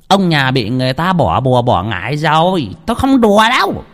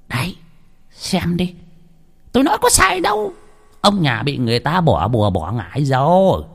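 First: Grave healer. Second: A healer proving his point, a touch smug; I told you so, gravely; vindicated healer. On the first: Healer tells the couple of a curse, grave. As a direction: pronounce the curse darkly. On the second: Healer shows the blackened egg, a touch smug. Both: A narrator's reading.

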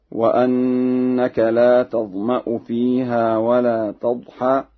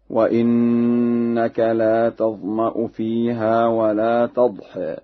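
First: Said in the usual way. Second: "وإنك" recited slowly as wa-innaka; Warsh reading. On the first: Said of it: "بكسر الهمزة". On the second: Shown as a demonstration. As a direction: begin "وإنك" with i on the hamza and a held n. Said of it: "بكسر الهمزة في لفظ أنك هكذا".

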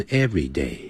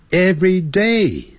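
First: "every day" run together, front-stressed. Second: "every day" as two words, DAY high and falling; stress on DAY. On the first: Teacher modelling the adjective everyday, stress up front. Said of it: "所以那念的时候就念成every day". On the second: Teacher modelling the separated words, stress on DAY. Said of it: "重音在day那个地方". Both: Shown as a demonstration.

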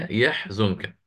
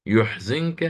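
First: "يحزنك" as yahzunka, ya with fatha and za with damma; "يحزنك" read yahzunka with ya open and za with damma; common reading. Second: "يحزنك" as yuhzinka, ya with damma and za with kasra; "يحزنك" read yuhzinka for Abu Jaafar, ya with damma. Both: Shown as a demonstration. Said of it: "فافتح ضم".

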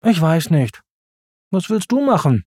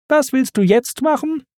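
First: Du hervorgehoben, am Ende fallend; Simba fragt zurück, Betonung auf du. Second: Was hoch betont, der Rest fällt ab; Timon fragt, Betonung auf Was. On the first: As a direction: gibt die Frage zurück, du betont. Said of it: "antwortete Simba". (Betonung auf „du“, Satzende fallend) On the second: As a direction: Timon fragt ratlos, Was deutlich hervorgehoben. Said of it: "fragte Timon wieder einmal". (Betonung auf „Was“, hoch und fragend) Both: A narrator's reading.

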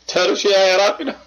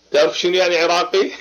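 First: Laughing through the question, faster; teasing laugh. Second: Said in the usual way. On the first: Acted. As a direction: tease him, chuckling as you ask again. (سؤال ضاحك ساخر)

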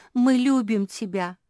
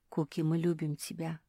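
First: Higher, loud affectionate cry; all in chorus. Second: Said in the usual way. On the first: A narrator's reading. Family echoes Феня to Куки, loudly in chorus. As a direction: take it up like a whole group. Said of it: "хором подхватили все". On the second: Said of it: "остановила её Феня".

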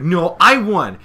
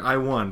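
First: Loud, higher stress on "I"; insistent correction. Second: Said in the usual way. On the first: Retold or imitated. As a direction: punch "I" to contradict a rival's claim. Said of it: "Dash is like". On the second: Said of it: "Gilda's like".

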